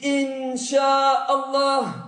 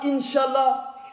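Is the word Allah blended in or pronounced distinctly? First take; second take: distinct; blended. First: The word Allah is pronounced fully and distinctly. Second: The word Allah is blended into the phrase. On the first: The speaker calls it right. "dis Inch'Allah" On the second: The speaker calls it wrong. "Ne dis pas Inch'Allah"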